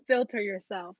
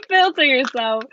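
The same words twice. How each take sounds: First: Said in the usual way. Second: Laughing. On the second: Real, not acted. Reader laughs, telling the querent to filter themselves. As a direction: repeat "Filter yourself" through a laugh, louder.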